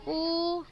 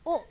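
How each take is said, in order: First: The vowel is drawn out long. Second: The vowel is cut short. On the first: The speaker calls it right. "Jadi kita bacanya u gitu" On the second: The speaker calls it wrong. "Bukan u"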